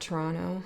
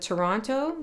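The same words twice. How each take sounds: First: The second t sound is dropped. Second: The second t sound is clearly pronounced. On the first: The speaker sounds like someone really from the city. The speaker calls it right. "There, I said it better now" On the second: The speaker sounds like someone not really from the city. The speaker calls it wrong. "I say Toronto so weird now"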